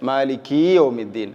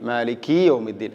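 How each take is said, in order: Both takes have the same delivery.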